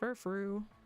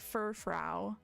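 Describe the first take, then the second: First: The last syllable sounds like 'frou'. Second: The last syllable does not sound like 'frou'. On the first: The speaker calls it right. "This is meant to be like Frou-Frou" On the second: The speaker calls it wrong. "I was pronouncing Furfru just completely wrong"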